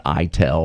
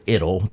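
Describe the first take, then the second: First: "itel" said as EYE-tell; long-I pronunciation. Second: "itil" said as IT-il; short-I pronunciation. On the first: Offering one way to say the acronym, long-I pronunciation. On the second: Offering the other way to say the acronym, short-I pronunciation. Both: Shown as a demonstration. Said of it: "depending on how you want to pronounce the acronym".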